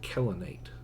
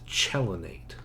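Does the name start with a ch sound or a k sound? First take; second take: k sound; ch sound. First: The name begins with a k sound. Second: The name begins with a ch sound. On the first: "Probably in Greek you pronounce it Kellenate" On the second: "I'm just going to say cello"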